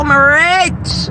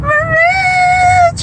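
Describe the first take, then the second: First: Said in the usual way. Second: Very high crying shriek of I'm rich; joyful screech. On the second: Real, not acted. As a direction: screech it out, overjoyed.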